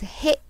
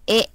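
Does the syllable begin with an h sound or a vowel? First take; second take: h sound; vowel. First: The syllable begins with an h sound. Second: The syllable begins with a bare vowel. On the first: The character is read as an ordinary syllable. "You learn as he" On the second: The character is used as a particle. "if this he is used as a particle, it's pronounced as e"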